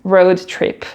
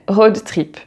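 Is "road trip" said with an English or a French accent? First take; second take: English; French. First: It is said with an English accent. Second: It is said with a French accent. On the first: "Je sais le dire en anglais quand même" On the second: "Accent français, s'il vous plaît"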